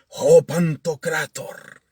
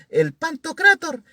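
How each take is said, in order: First: It is said with a grand, solemn tone. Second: It is said flatly, without a special tone.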